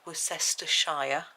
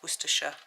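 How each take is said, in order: First: The name is said with an American pronunciation. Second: The name is said with a British pronunciation. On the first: "You might say Worcestershire, whereas we don't" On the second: "The way we say it is Worcestershire"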